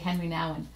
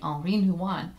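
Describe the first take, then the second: First: The first name is pronounced the English way. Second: The first name is pronounced the French way. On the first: "other times just say" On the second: "I call him by his French pronunciation"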